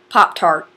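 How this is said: It is said in a southern US accent. "They say, like, Pop-Tart. Down here"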